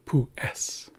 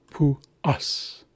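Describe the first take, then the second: First: "pu es" with an eh vowel in "es". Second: "Pu us" with an ah-like vowel in "us". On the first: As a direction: mispronounce it with a clear eh: "pu es". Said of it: "not pu es". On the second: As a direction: say "us" with uh, not eh. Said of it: "think ah". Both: Shown as a demonstration.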